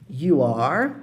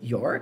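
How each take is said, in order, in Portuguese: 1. É dito como duas palavras completas. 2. É contraído em uma só sílaba.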